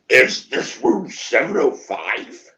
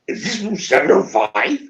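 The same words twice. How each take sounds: First: Slow, drawn-out question with rising end; puzzled question. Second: Higher, rising question; startled repeated question. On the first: Friend asking the room which room this is, slow and puzzled. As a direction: stretch it out as if it's slowly dawning. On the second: Friend asking once more as it hits him, startled and higher. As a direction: ask it with mounting realization. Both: Retold or imitated.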